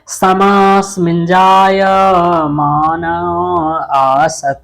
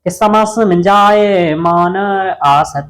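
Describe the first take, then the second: First: It is recited slowly, word by word. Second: It is recited quickly, in one flow. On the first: "मैं speed में इसलिए नहीं पढ़ा रहा हूं" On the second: "थोड़ा स्पीड में पढ़ोगे तो अच्छे से पढ़ जाएगा"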